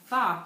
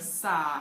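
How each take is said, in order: First: The s is lisped with the tongue out. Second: The s is clear with the tongue behind. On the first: The speaker calls it wrong. "a frontal lisp" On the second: The speaker calls it right. "instead of sock"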